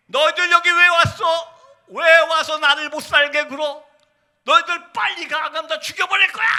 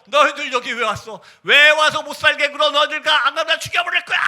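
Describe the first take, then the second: First: 귀신 들린 외침. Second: Retold possessed threat, climbing high. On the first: Retold or imitated. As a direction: imitate a possessed woman's rising scream. (귀신 들린 듯 높게 소리 지르기) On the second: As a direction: imitate a possessed woman screaming her threat. (귀신 들린 자매의 외침 흉내) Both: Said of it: "막 소리 지르기 시작합니다".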